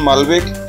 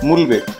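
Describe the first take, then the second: First: The first syllable has an 'a' vowel. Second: The first syllable has a 'u' vowel. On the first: "কেউ উচ্চারণ করেন মালবেক" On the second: "কেউ উচ্চারণ করেন মুলবেক"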